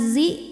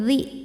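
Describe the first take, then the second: First: The tongue sits behind the upper teeth. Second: The tongue pokes forward past the teeth. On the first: The speaker calls it wrong. "jangan di belakang gigi, jangan zi" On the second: The speaker calls it right. "tapi zi, zi kedepanin dikit, melet dikit"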